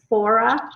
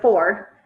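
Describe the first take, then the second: First: An extra vowel sound is added at the end. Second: No extra vowel sound is added at the end. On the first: This is a regional way of saying it. The speaker calls it wrong. "when they say four, they say fora" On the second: This is the usual way of saying it. The speaker calls it right. "instead of four"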